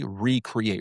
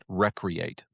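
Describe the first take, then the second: First: The first syllable sounds like 'ree'. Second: The first syllable sounds like 'reck'. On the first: Creating one's life anew. "it's really recreate, recreating our lives every single day" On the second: Taking leisure time for fun. "we sometimes call it recreate"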